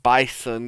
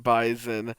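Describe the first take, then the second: First: The middle consonant is a hissing S sound. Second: The middle consonant is a buzzing Z sound. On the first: "not calling it bison" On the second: "enunciating the Z in bison"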